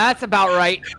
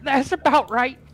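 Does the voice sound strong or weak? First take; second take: strong; weak. First: The voice sounds full and strong. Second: The voice sounds frail and weak.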